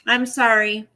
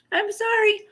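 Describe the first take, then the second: First: Said in the usual way. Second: Much higher-pitched apology; sheepish, high little "sorry"; small apologetic squeak. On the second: Real, not acted. Repeats apology in tiny high voice.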